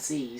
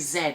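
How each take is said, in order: First: The letter is said the American way, zee. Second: The letter is said the British way, zed. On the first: "force of habit of teaching American English" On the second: "or should I say Z, seeing as I'm British?"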